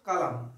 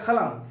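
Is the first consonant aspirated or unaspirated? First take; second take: unaspirated; aspirated. First: The first consonant is a plain k, without aspiration. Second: The first consonant is a breathy, aspirated kh. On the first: The speaker calls it right. "কারো নাম মনে করো কালাম" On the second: The speaker calls it wrong. "তখন বলতে হবে খালাম, ... তো খালাম না।"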